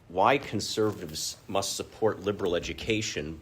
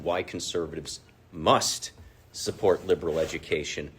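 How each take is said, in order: First: The word must carries no special stress. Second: The word must is strongly stressed. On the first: "the original title was" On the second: "I always like to emphasize the word must"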